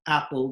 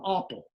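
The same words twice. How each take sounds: First: APPLE with the short "a" of "cat"; usual short A. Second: APPLE wrongly said with "ah", like "opple"; mistaken broad AH. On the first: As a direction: keep the American vowel in "apple". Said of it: "some of our ah words don't". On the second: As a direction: broaden the first vowel of "apple" to "ah". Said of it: "doesn't become apple". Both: Shown as a demonstration.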